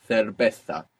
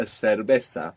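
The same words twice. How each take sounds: First: Cerveza with th for both c and z; Castilian th sounds in cerveza; th pronunciation from Spain. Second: Cerveza with s for both c and z; s pronunciation. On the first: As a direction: say cerveza as "thervetha". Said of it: "using the th sound". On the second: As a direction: say cerveza as "servesa". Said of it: "with the s sound". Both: Shown as a demonstration.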